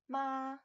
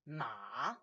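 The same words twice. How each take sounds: First: The pitch stays high and level. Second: The pitch dips low then comes up. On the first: It means mother. "first tone, ma, is a high even tone" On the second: It means horse. "Ma is a third tone. It's a dipping tone"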